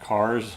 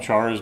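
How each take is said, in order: First: The word begins with a 'k' sound. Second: The word begins with a 'ch' sound. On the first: "Characters would be cars" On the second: "we just have a different pronunciation when it's uh, abbreviated like that"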